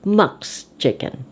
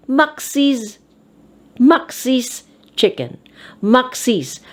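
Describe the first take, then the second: First: Said in the usual way. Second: "Max's" as two syllables, MAK-sis; "Max's" read with its possessive ending voiced as a syllable; extra syllable. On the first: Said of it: "again the popular way". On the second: Shown as a demonstration. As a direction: sound an added -is at the end of "Max's". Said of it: "you read it as Max's".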